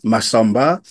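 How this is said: The name is said with French intonation. The children do not recognize their own name. The speaker calls it wrong. "là, je prononce en français"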